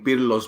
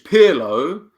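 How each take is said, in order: First: The name is said with a Greek accent. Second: The name is said with an English accent. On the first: "you said it with a Greek accent" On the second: "I'll say it for the English"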